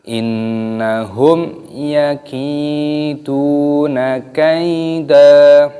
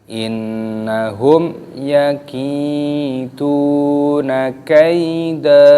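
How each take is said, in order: No difference in how they are said.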